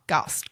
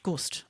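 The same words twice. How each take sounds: First: "Gust" with an open "ah" vowel, like "gast". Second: "Gust" with a short "oo" as in "put"; Gust with rounded vowel. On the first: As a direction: say "Gust" to rhyme with "cussed". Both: Real, not acted. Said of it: "how do you pronounce that".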